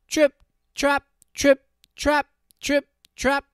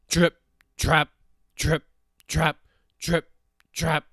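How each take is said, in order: First: High, loud, crisp hoof-step chant; lighter hoof beats. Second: Loud, measured hoof-step chant; heavy hoof beats. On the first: Hooves of the middle goat on bridge. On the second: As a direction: stamp out each word separately and loudly. Hooves of heavy goat on bridge. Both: A narrator's reading.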